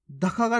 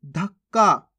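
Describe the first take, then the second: First: धक्का का as dha-ka-kaa; full-letter misreading. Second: धक्का as dhak-kaa; half-letter pronunciation. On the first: Teacher rejects this reading, धक्का का with full क. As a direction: sound each क fully in धक्का का. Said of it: "नहीं". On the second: Teacher shows the right reading, धक्का with half क. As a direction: hold the doubled क in धक्का. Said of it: "कैसे पढ़ेंगे". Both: Shown as a demonstration.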